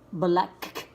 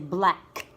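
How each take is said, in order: First: The k sound is pronounced twice, separately. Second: The k sound is pronounced only once. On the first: The speaker calls it wrong. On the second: The speaker calls it right.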